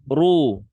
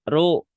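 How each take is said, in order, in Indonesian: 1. Bunyi r tebal dan berat. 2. Bunyi r tipis dan ringan. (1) "Kedua tebal" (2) "Pertama tipis"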